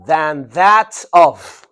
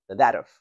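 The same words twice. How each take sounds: First: Loud, drawn-out THAN THAT OF; slow model phrase. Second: Said in the usual way. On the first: Shown as a demonstration. Teacher modelling a phrase for students, slowly and loudly. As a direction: stretch each word of "Than that of" firmly.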